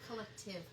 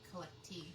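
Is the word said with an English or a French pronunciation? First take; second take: English; French. First: It is said the English way, ending in -tive. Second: It is said the French way, ending in -teef. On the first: The speaker calls it wrong. "Not collective" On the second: The speaker calls it right. "It would probably be collectif"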